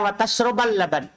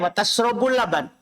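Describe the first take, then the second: First: The verb ends with an a vowel. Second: The verb ends with a u vowel. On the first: Drinking milk together with eating fish is forbidden. "Kalau waw ma'iyah itu adalah wa tashrabal laban" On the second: Drinking milk is allowed as a new statement. "Bisa juga waw istinafiyah wa tashrabul laban"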